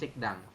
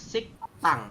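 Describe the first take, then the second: First: The second syllable starts with a plain D sound. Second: The second syllable starts with a tense T sound. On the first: The speaker calls it wrong. "bukan sikdang" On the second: The speaker calls it right. "Dibacanya adalah siktang"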